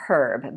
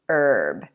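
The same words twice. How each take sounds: First: It is said the British way, H pronounced. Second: It is said the American way, H silent. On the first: "in British English they say herb" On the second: "in American English we say herb"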